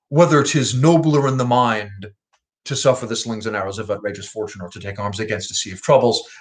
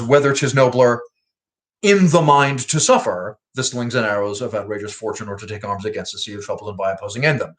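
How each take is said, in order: First: 'In the mind' is phrased together with 'nobler'. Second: 'In the mind' is phrased together with 'to suffer'.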